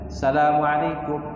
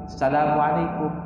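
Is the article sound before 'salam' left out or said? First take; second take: left out; left out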